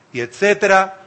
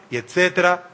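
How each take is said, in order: Both takes have the same delivery.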